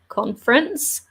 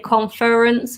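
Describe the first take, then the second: First: The word is said with only two syllables. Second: The word is said with three full syllables. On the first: The speaker calls it right. "only has two syllables" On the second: The speaker calls it wrong. "we don't say conference"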